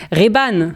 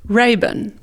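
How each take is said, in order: First: "Ray-Ban" said the French way, ré-BANE; Frenchify "Ray-Ban" into two even syllables, ré-bane; prononciation française. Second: "Ray-Ban" said the English way, first syllable RAY; prononciation anglaise. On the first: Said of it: "En français, on dira Ray-Ban". (« Ray-Ban » prononcé à la française, « ré-bane ») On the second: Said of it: "Tu as un accent allemand, je pense, en anglais". (« Ray-Ban » prononcé à l'anglaise) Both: Shown as a demonstration.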